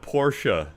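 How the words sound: The name is said with a German pronunciation. The speaker seems conceited and pretentious. "the original accent"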